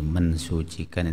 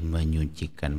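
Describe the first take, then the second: First: The s of suci is kept after n. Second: The s of suci becomes a ny sound. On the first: The speaker calls it wrong. "itu kayaknya menurut kaidah bahasa keliru ya" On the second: The speaker calls it right. "Kata suci itu kalau mendapatkan awalan me menjadi menyucikan"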